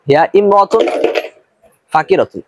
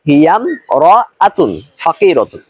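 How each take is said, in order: First: The first vowel of imra'atun is pronounced separately. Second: The first vowel is dropped, linking hiya into mra'atun. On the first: The speaker calls it wrong. "এই উচ্চারণটা কিন্তু ভুল।" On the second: The speaker calls it right. "সঠিক উচ্চারণটা হলো"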